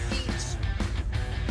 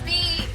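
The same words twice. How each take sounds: First: It is said flatly, without excitement. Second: It is said with clear excitement.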